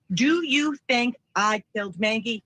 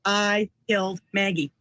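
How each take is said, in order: First: "Do you think I killed Maggie" asked slowly as a whole question; quoted question. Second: "I killed Maggie" as a level, falling statement; extracted statement. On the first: Retold or imitated. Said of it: "what he has said here is". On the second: Shown as a demonstration. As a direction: state "I killed Maggie" word by word, like a bare admission. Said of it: "the statement says what?".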